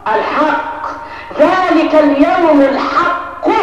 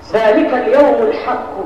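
First: Slow stress. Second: Said in the usual way. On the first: Shown as a demonstration. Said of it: "الحق دي عرفها ايه؟". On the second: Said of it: "صفة لا، لا".

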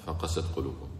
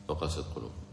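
No difference in how they are said.

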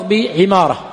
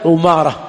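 First: عمارة with an i after the ayn, ʿimāra; عمارة as ʿi-MAA-ra; kasra on ayn. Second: عمارة with a u after the ayn, ʿumāra; عمارة as ʿu-MAA-ra; damma on ayn. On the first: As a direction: open عمارة on a short i vowel. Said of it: "فهو بكسر ماذا". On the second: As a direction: open عمارة on a short rounded u. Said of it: "كلهم بضم العين". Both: Shown as a demonstration.

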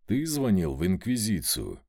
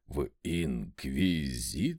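First: Said in the usual way. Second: Low, slow stuttered question; frightened stammer. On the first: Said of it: "прямо спросил я". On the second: A narrator's reading. Servant blanches at being asked about the Inquisition, frightened stammer. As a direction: stumble through the word in fear. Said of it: "заикаясь и белея лицом".

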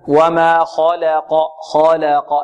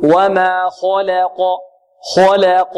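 First: Slow وما خلق, kh moderately heavy, lips unrounded; measured وما خلق, nothing overdone; natural tafkhim. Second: وما خلق with kh rounded to 'kho'; slowly recite, pursing lips on the خ of خلق; exaggerated heavy kh and q, thin l; overdone tafkhim. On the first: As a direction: recite خلق with balanced heavy kh and light l. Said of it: "نفخم الخاء تفخيما". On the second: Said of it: "يبالغ في التفخيم ويضم شفتيه في الخاء". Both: Shown as a demonstration.

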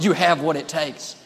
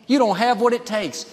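First: Steady, assured encouragement at normal pitch; voice of faith. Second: Higher-pitched, discouraging verdict; voice of defeat. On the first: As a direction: act the inner voice that builds someone up. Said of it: "Another voice will say". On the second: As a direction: act the inner voice that puts someone down. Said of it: "One voice will tell you". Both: Acted.

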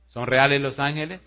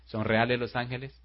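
First: "reales" pushed up, louder and rising; louder repeat. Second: Said in the usual way. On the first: Shown as a demonstration. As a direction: hammer the question home the second time.

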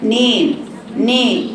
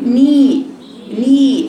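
First: نين and ني as "nayn, nay"; wrong tilted i. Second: ني as a clean, held "nee"; correct pure i. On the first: Teacher isolating the wrong syllable, vowel opened to e. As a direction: open the vowel of ني towards e. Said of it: "وليست". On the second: Teacher isolating the right syllable, pure long ee. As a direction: keep the vowel of ني a pure ee. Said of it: "لكن تقولي". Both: Shown as a demonstration.

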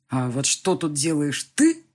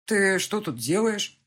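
First: Slow question landing on a rising, emphatic "ты" at the end; stress on ТЫ. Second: Drawn-out question with "делаешь" left unmarked at the end; slow, higher "Ты что тут делаешь?", challenging the other man. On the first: Father turns rival's question back on him, pointed "ты". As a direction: throw the question back, punching final "ты". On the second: Rival confronts the father outside the house, challenging. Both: A narrator's reading.

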